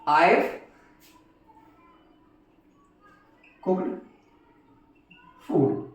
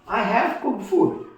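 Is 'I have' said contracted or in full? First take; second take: contracted; full. First: 'I have' is shortened to one syllable 'I've'. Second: Both words 'I have' are said fully. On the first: "तो बन आईव" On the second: "मैं कहता हूं आई हैव cooked food"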